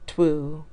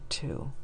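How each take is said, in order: First: A w sound follows the t. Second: No w sound follows the t. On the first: This is the older way of saying it. "that's what we used to say" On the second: This is the current way of saying it. "We say two for the number two"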